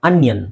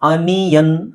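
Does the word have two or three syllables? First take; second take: two; three. First: The word is said with two syllables. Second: The word is said with three syllables. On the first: The speaker calls it right. "ಸರಿಯಾದ ಉಚ್ಚಾರಣೆ ನಿಮಗೆ ಅನ್ಯನ್" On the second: The speaker calls it wrong. "ತುಂಬಾ ಜನ ಆನಿಯನ್, ಅನಿಯನ್ ಅಂತಾರೆ"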